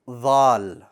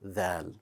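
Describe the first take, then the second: First: The sound is heavy, with a raised tongue back. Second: The sound is light, with a flat tongue back. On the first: The speaker calls it wrong. "Don't make it bold. Do not say dhal" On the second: The speaker calls it right. "so that it's pronounced as dal"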